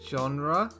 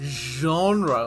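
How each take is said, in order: First: It is said in a plain, everyday English way. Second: It is said in a posh, French-like way.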